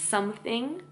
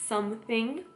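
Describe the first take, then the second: The two takes are said the same way.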